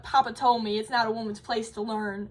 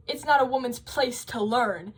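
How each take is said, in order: First: Lightly imitated Southern accent, voice catching as if close to tears; a hint of a sweet old Southern lady choking up over her lost dream; tearful Southern old lady. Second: Said in the usual way. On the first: Retelling the old lady's memory of her father, in a light Southern accent with a tearful catch. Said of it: "'cause she's Southern". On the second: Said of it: "her dad says".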